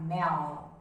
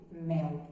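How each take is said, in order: First: "mel" ending on a raised-tongue L; English clear L. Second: "mel." ending in a "u" sound, like "meu"; Portuguese "u" L. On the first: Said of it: "teríamos que falar mel". ("mel" com o L da língua levantada) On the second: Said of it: "nós falamos com o som de U". ("mel." com o L soando como U) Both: Shown as a demonstration.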